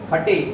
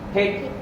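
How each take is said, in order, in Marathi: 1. शेवटी एक अतिरिक्त स्वर ऐकू येतो. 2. शेवटी कोणताही अतिरिक्त स्वर ऐकू येत नाही.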